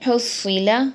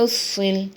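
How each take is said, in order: First: The word ends with a short vowel. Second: The word ends on a consonant. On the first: "रवां पढ़ती हूँ" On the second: "आगे वक़्फ़"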